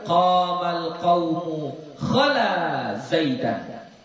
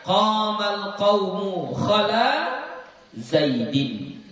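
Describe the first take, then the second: First: The last word ends with an 'an' sound. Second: The last word ends with an 'in' sound. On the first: The noun is in the accusative case. "kita nasabkan" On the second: The noun is in the genitive case. "Kalau yang dijarkan"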